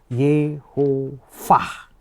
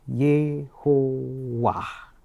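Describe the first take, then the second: First: The middle consonant is a V sound. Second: The middle consonant is a W sound.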